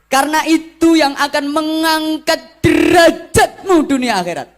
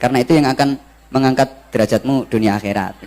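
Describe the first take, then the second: First: It has a lively, emphatic preacher's intonation. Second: It is said flatly, without emphatic intonation.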